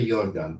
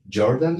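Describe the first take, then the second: First: The name has a German pronunciation. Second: The name has an English pronunciation. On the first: "Because he was a German, right? So it should be really Jordan" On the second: "in English"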